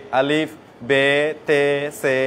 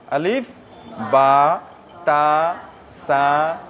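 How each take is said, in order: First: Put-on আলিফ, বে, তে, সে with the old e ending; wrong old letter names. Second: বা, তা, সা each ending in a clear a sound; correct letter names. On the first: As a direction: read বে, তে, সে the outdated way, slowly. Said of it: "এরকম পড়া ঠিক নয়". (ভুল পুরনো উচ্চারণে বে, তে, সে) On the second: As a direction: say বা, তা, সা with the a vowel, one by one. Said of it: "জবর দিয়ে উচ্চারণ করলে যেভাবে". (সঠিকভাবে বা, তা, সা উচ্চারণ) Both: Shown as a demonstration.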